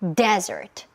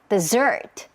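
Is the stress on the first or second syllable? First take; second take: first; second. First: The stress is on the first syllable. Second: The stress is on the second syllable. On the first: It means a dry sandy region. "여기는 앞에 강세가 있어요" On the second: It means a sweet course after a meal. "강세는 뒤에 줘야 돼요"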